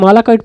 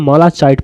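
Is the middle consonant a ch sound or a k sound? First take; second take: k; ch. First: The middle consonant is a k sound. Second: The middle consonant is a ch sound. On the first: This is the English reading. "English में मालाकाइट पढ़ते हैं" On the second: This is the Hindi reading. "Hindi में मालाचाइट पढ़ते हैं"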